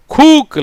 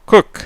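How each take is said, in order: First: கூக்கு with a long oo, said higher; wrong pronunciation. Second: குக் clipped short, u short; correct pronunciation. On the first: Teacher shows the mistake கூக்கு, raised and drawn out. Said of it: "இல்ல". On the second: Teacher gives the right form குக் after the wrong one. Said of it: "பாத்தீங்களா?". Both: Shown as a demonstration.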